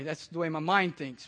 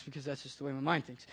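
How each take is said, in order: First: Said in the usual way. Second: Repeated under the breath, softer, lower and quicker; quiet aside. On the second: Shown as a demonstration. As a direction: mutter the repeat to yourself.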